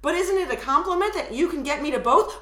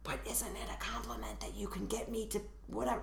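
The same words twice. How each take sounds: First: Said in the usual way. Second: Hushed, much softer quote; whispered quote after the tag. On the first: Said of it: "this is what it sounds like". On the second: Shown as a demonstration. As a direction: drop into a near-whisper for the quoted line. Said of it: "she should say, "I whispered back".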